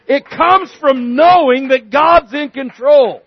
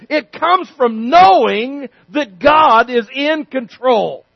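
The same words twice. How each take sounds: First: Louder emphatic. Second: Slow emphatic. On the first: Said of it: "louder repeat". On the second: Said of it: "slow emphatic repeat". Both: Real, not acted.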